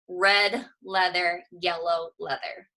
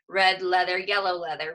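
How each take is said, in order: First: It is said at a slow, careful pace. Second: It is said at a quick pace.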